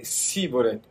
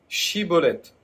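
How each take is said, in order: First: The word begins with an 's' sound. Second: The word begins with a 'sh' sound. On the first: The speaker is an outsider. The speaker calls it wrong. "il leur était impossible de bien le prononcer" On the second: The speaker is a local. The speaker calls it right. "prononcer ce fameux mot"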